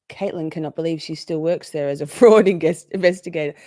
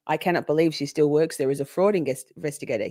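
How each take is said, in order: First: Reading the chat with a laugh breaking in; laughing through it. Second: Said in the usual way. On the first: Real, not acted. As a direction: giggle mid-sentence on "fraud". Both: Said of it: "Okay, so Caitlin, full stop".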